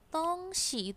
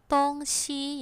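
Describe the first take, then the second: First: The second syllable is light and toneless. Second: Both syllables carry a high level tone. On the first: It means a thing or object. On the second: It means east and west.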